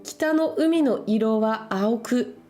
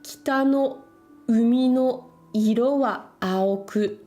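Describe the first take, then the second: First: The sentence is read at a normal pace. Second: The sentence is read a little more slowly.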